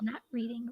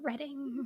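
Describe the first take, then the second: First: The first syllable sounds like 'reed'. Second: The first syllable sounds like 'red'. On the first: The speaker calls it wrong. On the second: The speaker calls it right.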